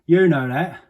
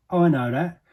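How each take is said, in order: First: YOU hit high and loud in "You know that"; stress on YOU. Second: I hit high and loud in "I know that"; stress on I. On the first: Protesting innocence to the listener, loud stress on You. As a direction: punch the first word, "You". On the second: Protesting innocence to the listener, loud stress on I. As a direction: punch the first word, "I". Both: Acted. Insisting others know the truth.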